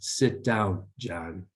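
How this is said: The voice is pitched low. It sounds more authoritative and competent. The speaker calls it right. "Just that lower tone seems to reflect more authority and competence"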